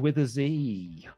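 The letter is pronounced 'zee', American style. The speaker calls it wrong.

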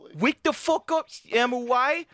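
It is said in a baby voice.

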